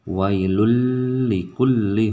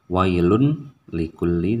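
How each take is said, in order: First: The n merges fully into the l sound. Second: The n is pronounced clearly before the l. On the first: The speaker calls it right. "tetapi wailul likulli" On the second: The speaker calls it wrong. "Jadi tidak wailun likulli"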